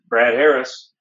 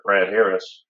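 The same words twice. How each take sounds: First: It is said with a bright, smiling voice. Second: It is said with a plain, unsmiling voice.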